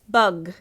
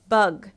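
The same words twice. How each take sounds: First: The word stops sharply on the final consonant. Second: The same.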